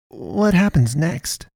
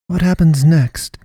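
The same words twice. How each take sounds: First: High, slow, wavering with dread; wavering urgency. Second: Slow, louder, pondering pastoress; echoed question. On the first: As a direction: ask fearfully, dreading it. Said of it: "urgency and fatalism in her wavering voice". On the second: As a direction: echo it back thoughtfully. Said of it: "she echoed". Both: A narrator's reading.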